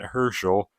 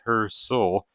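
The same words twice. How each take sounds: First: The middle has an 'sh' sound, like Porsche. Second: The middle has an 's' sound, like hearse. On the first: The speaker calls it wrong. "not Herschel, which I think I was pronouncing it as earlier" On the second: The speaker calls it right. "that would mean that Steve's last name is Herschel"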